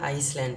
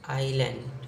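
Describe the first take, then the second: First: The word is said with an s sound. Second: The word is said without an s sound. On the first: The speaker calls it wrong. "कुछ लोग क्या करते हैं आइसलैंड पढ़ते हैं, जो बिल्कुल गलत है" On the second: The speaker calls it right. "इसको हम पढ़ते हैं आइलैंड"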